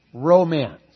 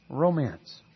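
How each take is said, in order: First: Romance rung out louder after a pause; Romance declaimed loud. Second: Said in the usual way. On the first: Shown as a demonstration. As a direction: proclaim the word Romance like a headline. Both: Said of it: "Here's a good word for you".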